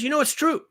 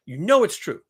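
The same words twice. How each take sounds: First: High, pushed insistence on true; insistent. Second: Said in the usual way. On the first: Shown as a demonstration. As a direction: drive it home, higher. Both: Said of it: "You know it is".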